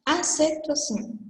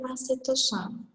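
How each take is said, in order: First: "Acentuação" said the Spanish way, as acentuación; Spanish pronunciation. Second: "acentuação" said the Portuguese way, nasal -ção ending; Portuguese pronunciation. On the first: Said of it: "em português seria acentuação". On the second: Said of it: "em português seria". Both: Shown as a demonstration.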